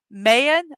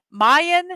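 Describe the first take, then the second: First: Mayan with MAY as in the month, rising; Mayan, first syllable like the month May, tune going up. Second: Mayan with MY as in my, a bit higher and louder. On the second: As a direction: Mayan corrected, first syllable like the word my. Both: Shown as a demonstration.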